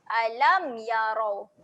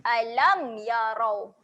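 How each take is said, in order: No difference in how they are said.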